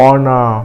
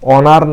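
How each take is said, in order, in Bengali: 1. শব্দের শেষে কোনো র ধ্বনি শোনা যায় না। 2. শব্দের শেষে একটি স্পষ্ট র ধ্বনি শোনা যায়। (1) "এই রটা অনুচ্চারিত থাকবে" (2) "অনার না হয়ে"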